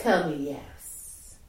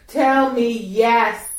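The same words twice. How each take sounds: First: Low, soft coaxing prompt. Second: Louder, slow insistent command; firm command. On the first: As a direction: murmur the request gently. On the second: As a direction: demand it, drawn out. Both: Shown as a demonstration.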